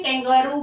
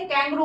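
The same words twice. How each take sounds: First: "कैंगारू" as three syllables, kang-GAA-roo; wrong pronunciation. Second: "कैंगरू" as two syllables, KANG-groo; corrected pronunciation. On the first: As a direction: give "कैंगारू" a full middle गा. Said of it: "कैंगारू भी नहीं बोलते". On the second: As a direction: drop the long middle vowel in "कैंगरू". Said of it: "कैंगरू होता है इसका". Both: Shown as a demonstration.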